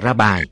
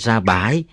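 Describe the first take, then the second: First: The second syllable has a low falling tone. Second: The second syllable has a broken rising tone. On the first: The speaker calls it wrong. "chứ không phải là ra bài" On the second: The speaker calls it right. "phải nói ra bãi"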